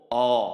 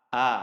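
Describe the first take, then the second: First: The vowel is a rounded 'o' sound. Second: The vowel is an open 'a' sound. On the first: The speaker calls it wrong. "Huruf hamzah sering sekali dibaca o" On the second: The speaker calls it right. "huruf hamzah yang sebenarnya adalah dibaca a"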